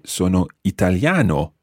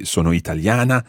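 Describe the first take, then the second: First: "sono italiano" with a clear O sound at the end; "sono italiano", ending on a rounded O; masculine ending. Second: "sono italiana" with a clear A sound at the end; "sono italiana", ending on an open A; feminine ending. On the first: Teacher contrasting endings for learners, O ending. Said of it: "with an O sound at the end as opposed to an A sound". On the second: Teacher contrasting endings for learners, A ending. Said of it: "I wouldn't say". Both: Shown as a demonstration.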